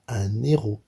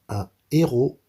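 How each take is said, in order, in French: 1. Le son n se lie à la voyelle suivante. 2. L'article et le nom se prononcent séparément, sans liaison. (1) "et non pas ... Ça c'est faux" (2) "ce H-là est un H aspiré. Donc on devra dire"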